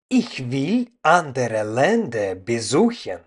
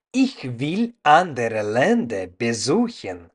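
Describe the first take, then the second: No difference in how they are said.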